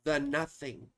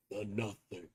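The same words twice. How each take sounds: First: Said in the usual way. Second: Low and soft, dread in it; hushed, lower menacing take; ominous movie voice. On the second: Pretend. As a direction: breathe it like a dark omen. Repeating the film phrase.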